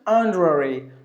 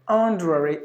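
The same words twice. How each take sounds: The two takes are said the same way.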